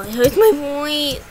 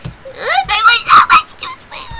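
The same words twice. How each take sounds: First: Said in the usual way. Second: Very high, loud squeal; strained squeaky character shriek; Sprinkles voice. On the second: Shown as a demonstration. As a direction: push the voice way up into a squeak. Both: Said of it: "I can't do a Sprinkles voice".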